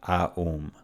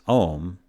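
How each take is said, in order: First: The vowel is A gliding into U. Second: The vowel is a single O sound. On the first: The speaker calls it wrong. "not Aum" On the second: The speaker calls it right. "Om is Om"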